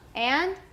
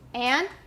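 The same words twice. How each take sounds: No difference in how they are said.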